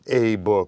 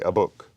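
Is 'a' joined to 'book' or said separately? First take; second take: separate; joined. First: The word 'a' is said separately from 'book'. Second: The word 'a' runs straight into 'book'. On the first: The speaker calls it wrong. "we would not say a book" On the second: The speaker calls it right. "we glide, we elide the two of them together"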